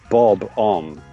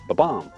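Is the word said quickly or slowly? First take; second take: slowly; quickly. First: The word is said slowly, with both syllables clear. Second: The word is said quickly, with a reduced first syllable. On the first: "The correct answer was" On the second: "if you say it quickly, it goes"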